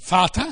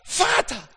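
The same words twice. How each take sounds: First: The word is said plainly, without strong feeling. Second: The word is called out with yearning feeling. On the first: It is simply stated. The speaker calls it wrong. "Nicht Vater" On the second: It expresses longing for the one addressed. The speaker calls it right. "sondern Vater, Vater. Eine Sehnsucht nach ihm"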